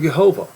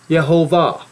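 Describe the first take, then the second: First: The stress falls before the last syllable. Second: The stress falls on the last syllable. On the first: The speaker calls it wrong. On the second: The speaker calls it right.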